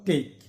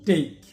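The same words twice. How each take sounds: First: The vowel sounds like the a in day. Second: The vowel sounds like the a in day.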